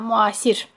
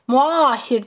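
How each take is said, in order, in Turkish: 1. Vurgu son hecaya düşer. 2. Vurgu ikinci hecaya düşer. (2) "Müasir demirəm ki"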